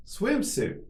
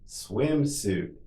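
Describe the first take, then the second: First: Much higher, shorter take; quicker model. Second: Drawn-out word for learners; slow model. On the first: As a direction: say it quickly on a raised pitch. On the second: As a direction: say it slowly and evenly for repetition. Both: Shown as a demonstration. Teacher models word for repetition.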